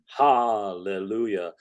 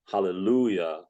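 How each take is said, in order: First: The stress is on the first syllable, ha. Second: The stress is on the third syllable, lu. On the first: The speaker calls it wrong. "to attack the ha of hallelujah" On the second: The speaker calls it right. "the stress should come on the lu"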